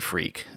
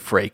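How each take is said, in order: First: It sounds like the modern word freak. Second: It sounds different from the modern word freak. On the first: The speaker calls it wrong. "I'm going to skew my pronunciation to not be freak" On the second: The speaker calls it right. "I'm going to say freke instead"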